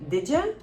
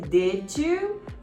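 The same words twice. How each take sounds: First: The words are reduced and run together. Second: Each word is said fully and separately. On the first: The speaker calls it right. "vai ser" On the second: The speaker calls it wrong. "Não vai ser"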